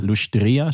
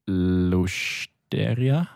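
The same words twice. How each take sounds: First: Lustria with a long, stressed I. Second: Lusteria very slow, stretched out syllable by syllable; unsure stress. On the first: Learner repeating the teacher's correction, stress on the I. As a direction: lean on the I in Lustria, luschtRIa. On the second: Learner trying out the word for restaurant, unsure stress. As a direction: stretch Lusteria out slowly as luschteria, with an extra E. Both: Shown as a demonstration. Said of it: "Betonung auf dem I".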